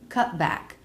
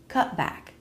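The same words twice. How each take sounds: No difference in how they are said.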